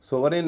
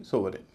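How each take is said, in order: First: सोवरेन with a full "-rain" ending, pitched up; weight the last vowel of सोवरेन; wrong pronunciation. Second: सोवरेन as "SOV-rin", falling; correct pronunciation. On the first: (सोवरेन, आख़िर में पूरा "रेन") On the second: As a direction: let the last vowel of सोवरेन shrink to "i". (सोवरेन, आख़िर में हल्का "रिन") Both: Shown as a demonstration. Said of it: "सोवरेन नहीं".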